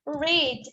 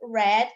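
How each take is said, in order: First: The vowel is long, like in reed. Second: The vowel is short, like in red. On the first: It is the present tense. "se escreve da mesma forma, mas se pronuncia da forma diferente" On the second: It is the past tense. "Se pronuncia red, igual a cor"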